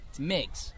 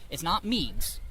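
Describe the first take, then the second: First: "Meigs" the corrected way, softer and lower; corrected pronunciation of Meigs. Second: "Meigs" said the rejected way, slowly; wrong pronunciation of Meigs. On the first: Correcting the fort's name to the major, "Meigs" softly pronounced as corrected. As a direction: give "Meigs" its corrected vowel, quietly. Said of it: "First off, it's not Meigs". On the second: Correcting the fort's name to the major, "Meigs" mispronounced slowly. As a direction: give "Meigs" its mistaken vowel, drawn out. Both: Shown as a demonstration.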